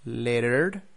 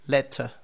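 First: "Lettered" said as American "letter", T tapped, final R sounded, rising; American demo of "Lettered" as letter, tune left open; American accent. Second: "letter" the British way, crisp T, silent final R, falling; British demo of "letter" with a closing fall; British accent. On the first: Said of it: "T's in the middle of words sound like R". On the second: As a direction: model British "letter", ending in an open uh. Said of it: "it sounds just like a T". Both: Shown as a demonstration.

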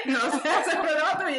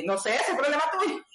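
First: Higher mock-offhand, breaking into laughter; laughing. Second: Higher, mock-offhand friend voice; teasing friend. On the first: Guest repeating Nani's teasing line, laughing. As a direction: repeat the tease while laughing. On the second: Guest imitating Nani brushing off the surgeon, mock-offhand. Quoting Nani's teasing reply.

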